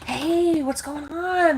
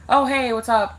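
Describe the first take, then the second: First: The greeting sounds warm and engaged. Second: The greeting sounds indifferent and offhand.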